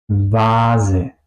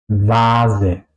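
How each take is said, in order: No difference in how they are said.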